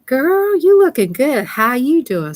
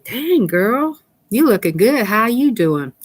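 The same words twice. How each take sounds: First: Much higher, louder gushing compliment; excited greeting. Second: Put-on a bright hey-girl compliment; cheery greeting. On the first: Telling viewers how to greet her, excited and gushing. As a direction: squeal it like you just spotted your best friend. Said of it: "go over there and say". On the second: Viewer greeting the streamer, lightly excited. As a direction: gush a little over her looks. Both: Shown as a demonstration.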